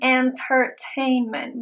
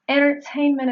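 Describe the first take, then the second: First: The T after the N is pronounced. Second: The T after the N is silent. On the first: "I am not saying entertainment" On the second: "in a fast speech, it is more logical to say"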